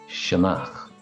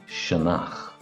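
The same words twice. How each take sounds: The two takes are said the same way.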